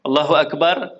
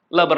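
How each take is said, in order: First: It is said slowly and fully. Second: It is said fast and clipped.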